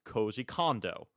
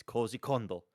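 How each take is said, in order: First: Koji Kondo said English-style, Kondo as KAHN-doh, slow; mock the common English Koji Kondo; slowed Anglicised Koji Kondo; imitating wrong reading. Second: Koji Kondo with a long O, Kondo as KOHN-doh; correct Japanese. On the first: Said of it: "a lot of people will say". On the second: Shown as a demonstration. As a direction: model the proper Koji Kondo. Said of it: "it's Koji Kondo".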